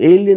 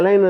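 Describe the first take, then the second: First: It begins 'ay-lee', with three syllables. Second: It begins 'a-line', with two syllables. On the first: The speaker calls it right. "ఏలియన్ అన్న ఒక cinema వచ్చింది" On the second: The speaker calls it wrong. "నేను చాలా రోజులు అలైన్ అని ఉండేదాన్ని"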